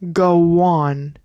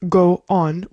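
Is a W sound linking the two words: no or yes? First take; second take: yes; no. First: A W sound links the two vowels together. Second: The two vowels are said without a linking sound. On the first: "We're adding a W sound in between the two O's" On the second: "instead of go on"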